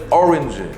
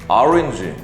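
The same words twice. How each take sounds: First: It is said imitating English pronunciation. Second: It is said with plain Korean loanword sounds. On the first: "이렇게 적어야 한다는 거예요" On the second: "오렌지라고 하면 안 되고"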